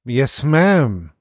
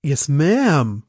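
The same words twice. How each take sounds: First: "Yes, ma'am" breathed through the nose; mock Paris, air through the nose; nasal Paris imitation. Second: Paris's clipped "Yes, ma'am"; lightly imitating Tom Paris saying "Yes, ma'am"; Mister Paris emphasis. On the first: Shown as a demonstration. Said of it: "Du musst mehr durch die Nase atmen". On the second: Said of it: "in seiner Mister Paris Betonung".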